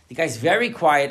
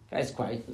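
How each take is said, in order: First: "very" hit louder and higher; stress on very. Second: Said in the usual way. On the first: Shown as a demonstration. Rabbi showing how one word "very" changes a reference, stressed. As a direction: lean on "very" so it turns the line against him. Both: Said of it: "all you added was one word, "very".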